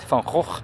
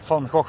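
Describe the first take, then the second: First: The G sounds are harsh, northern Dutch style. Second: The G sounds are soft, southern Dutch style. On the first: "Unless you're from the north" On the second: "That's how you pronounce it"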